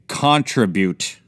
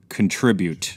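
First: The word is said the British way. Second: The word is said in the speaker's usual way.

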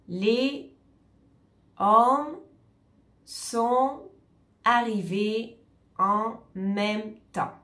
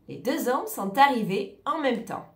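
First: Each word is said separately without linking. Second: The words run together with liaisons between them. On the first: The speaker calls it wrong. "On ne va pas séparer tous les mots. ... Non, on ne va jamais dire cette phrase de cette manière" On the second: The speaker calls it right. "On va dire les deux hommes sont arrivés en même temps"

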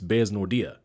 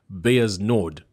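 First: It is said as Bears Nordia. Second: It is said as Bayer's Nord. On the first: The speaker calls it right. "but it's Bears Nordia" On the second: The speaker calls it wrong. "You can't say Bayer's Nord. That's how it looks when you read the word"

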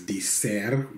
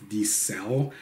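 First: The name ends with an R sound. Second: The name ends with an L sound. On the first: The speaker calls it wrong. "I've pronounced it wrong in the past as Dicer with an R" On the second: The speaker calls it right. "it's actually an L, just like cell phone"

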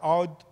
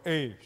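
First: The name has more than a single vowel sound. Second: The name is a single vowel sound, like 'ay'. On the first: The speaker calls it wrong. "initially we were calling it as Aodh" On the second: The speaker calls it right. "as per Google, it is called A"

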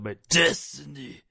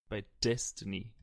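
First: It is said in a changed, put-on voice. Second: It is said in an ordinary speaking voice. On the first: The speaker calls it right. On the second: The speaker calls it wrong.

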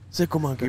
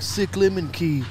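First: It is split as sickle, then monkey. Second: It is split as sick, lemon, key. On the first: The speaker calls it right. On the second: The speaker calls it wrong. "people mispronounce it on there though. They're like"

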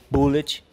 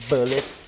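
First: It is pronounced the Brazilian Portuguese way. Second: It is pronounced the original English way. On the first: This is how people in Brazil say it. "ou Bullet, que nós somos no Brasil" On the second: This is how it should properly be said. "mas seria Bullet"

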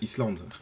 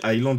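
First: The word is said as spelled, s sounded. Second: The word is said with a silent s. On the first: The word is read the way it is written. The speaker calls it wrong. "J'apprenais les mots tels que ça se lit" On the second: The word is said the way English speakers say it. The speaker calls it right. "quand j'ai appris que ça se dit Island"

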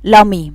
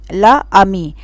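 First: The first vowel drops, joining into one word. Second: Both vowels are said separately, as two words. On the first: The speaker calls it right. "فالصح ان اقول لامي" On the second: The speaker calls it wrong. "في حرفين فويل الا والا ورا بعض"

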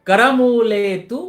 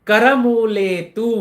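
Both takes have the same delivery.

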